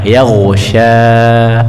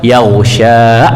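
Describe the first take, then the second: First: The final vowel fades out gently with the breath. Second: The final vowel is pressed and stopped abruptly. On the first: The speaker calls it right. "Lembut. Dia berhenti sesuai dengan berhentinya nafas" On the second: The speaker calls it wrong. "bukan yaghsha. Nah, ini kurang tepat. Kalau kita beri tekanan"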